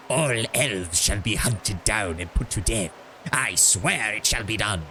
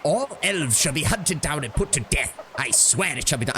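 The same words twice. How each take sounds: First: Slow, rasping Sith-lord menace; Palpatine voice. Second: Said in the usual way. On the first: Shown as a demonstration. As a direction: drawl it out like a gloating dark emperor. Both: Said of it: "I'm gonna give this guy Palpatine voice".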